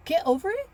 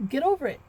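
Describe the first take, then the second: First: "Get over it?" high and louder, rising in disbelief; indignant echo. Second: "get over it" said firmly, falling at the end; matter-of-fact dismissal. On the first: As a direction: repeat his words back, offended. Echoing her husband in disbelief. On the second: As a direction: brush it off like the husband. Husband's dismissive answer retold. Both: Retold or imitated.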